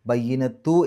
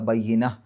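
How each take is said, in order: First: The word ends with a t sound. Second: The word ends with an h sound. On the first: "ബയ്യിനത്തു എന്നാണ്" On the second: "സുക്കൂനുള്ള ഹാ ആക്കിയിട്ട് ഉച്ചരിക്കുക"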